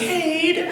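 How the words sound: The name is said in a warm, kind tone. That really means a lot to me. "I can say it really kindly"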